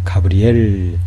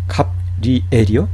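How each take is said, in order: First: The b joins the r to start the next syllable. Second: The b closes the first syllable as a final. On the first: The speaker calls it right. "가브리엘이 되는 거예요" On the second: The speaker calls it wrong. "그렇지 않아요"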